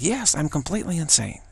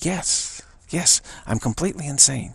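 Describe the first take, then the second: First: It is said in a happy, cheerful tone. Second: It is said in a flat, neutral tone.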